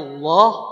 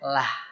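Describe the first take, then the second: First: The L and vowel sound heavy and dark. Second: The L and vowel sound light and thin. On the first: "Tebalnya loh" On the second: "tipisnya lah"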